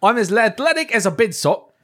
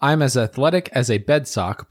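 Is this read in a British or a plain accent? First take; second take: British; plain. First: It is read in an attempted British accent. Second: It is read in the speaker's ordinary accent.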